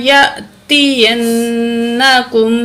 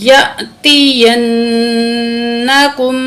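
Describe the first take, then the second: The two takes are said the same way.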